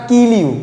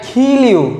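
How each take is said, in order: First: The K is said without a puff of air. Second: The K is said with a strong puff of air. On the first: The speaker calls it wrong. "It's not" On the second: The speaker calls it right. "ক উচ্চারণ করবেন না, সেগুলো কি খ উচ্চারণ করার চেষ্টা করবেন"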